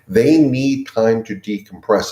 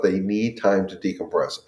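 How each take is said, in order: First: "They need time to decompress" said slowly, each word weighted; emphatic repeat. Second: Said in the usual way. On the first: Real, not acted. Advocate insisting to dog owners "They need time to decompress", slow emphasis.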